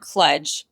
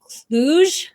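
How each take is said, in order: First: The word rhymes with sludge. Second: The word does not rhyme with sludge.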